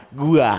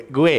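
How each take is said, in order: First: GUA ending in an open "ah"; Betawi pronoun form. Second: Said in the usual way. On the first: Shown as a demonstration. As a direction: say "Gua" with a clear final a. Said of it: "gua, gua". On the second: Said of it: "Ah, gue, gue, gua".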